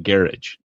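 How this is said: It is said with a British pronunciation. The speaker picked up the habit abroad. The speaker calls it wrong.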